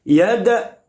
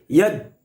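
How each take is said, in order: First: The d is released with a bouncing echo. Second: The d stops abruptly without any echo. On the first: The speaker calls it right. "harus mantul. Yada, yada harus begitu" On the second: The speaker calls it wrong. "Tidak boleh dibaca begini"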